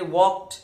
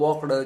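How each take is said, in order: First: The ending is said without an extra vowel sound. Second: The ending is said with an extra vowel sound. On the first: The speaker calls it right. "Pronunciation करत असताना आपण काय कसं केलं पाहिजे" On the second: The speaker calls it wrong. "Old pronunciation ... हे pronunciation wrong आहे"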